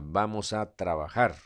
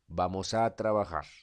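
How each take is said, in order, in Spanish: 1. El tono sube al final. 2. El tono baja al final. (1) "El final fue hacia arriba" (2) "Fue hacia abajo la inflexión"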